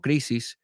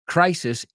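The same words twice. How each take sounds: First: It is said with Spanish-like sounds. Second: It is said with English sounds. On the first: The speaker calls it wrong. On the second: The speaker calls it right.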